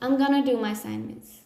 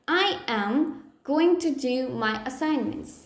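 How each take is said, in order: First: It is contracted to I'm gonna. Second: I am going to is said in full. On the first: "I can say" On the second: "if I have to say"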